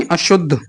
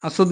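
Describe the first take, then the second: First: अशुद्ध said with sh, a-shuddh; correct sibilant. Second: अशुद्ध said with s, a-suddh; wrong sibilant. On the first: Teacher correcting students, अशुद्ध said with sh. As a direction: give अशुद्ध a clear sh. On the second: Teacher rejecting an error, अशुद्ध said with s. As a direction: put a plain s in अशुद्ध. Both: Shown as a demonstration. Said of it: "नहीं".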